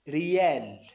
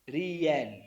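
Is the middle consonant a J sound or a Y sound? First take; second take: Y sound; Y sound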